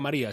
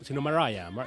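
First: The name is said with Spanish sounds. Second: The name is said with English sounds. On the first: The speaker calls it wrong. "no se pronuncia María" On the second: The speaker calls it right. "sino Mariah"

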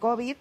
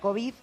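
First: The stress is on the first syllable. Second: The stress is on the last syllable. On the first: "en inglés lo dicen COVID" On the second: "nosotros decimos normalmente COVID, es una palabra aguda para el español"

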